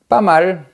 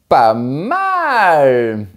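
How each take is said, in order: First: It is said in a lukewarm, hesitant tone. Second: It is said in an enthusiastic, excited tone. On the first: It could be better but it is acceptable. "Il y a mieux, mais ça va" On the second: It is excellent. "Super. Bravo"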